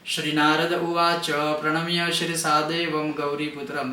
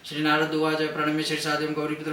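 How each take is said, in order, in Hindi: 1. पाठ तेज़ है, पर हर शब्द साफ़ है। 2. जल्दबाज़ी है, शब्द आपस में मिलकर अस्पष्ट हो जाते हैं। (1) "थोड़ा स्पीड में बोल सकते हो... स्पष्ट ही है" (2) "जल्दबाजी में... वो सही नहीं है"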